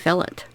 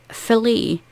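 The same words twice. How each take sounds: First: It is said the Scottish way. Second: It is said the commenter's non-Scottish way.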